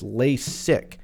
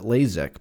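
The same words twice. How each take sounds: First: The middle consonant is an s sound. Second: The middle consonant is a z sound. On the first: The speaker calls it right. "There's no Z. I think it's LASIK" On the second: The speaker calls it wrong. "I think everyone calls it LASIK, but I think they're all wrong"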